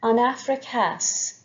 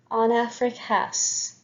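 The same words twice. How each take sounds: The two takes are said the same way.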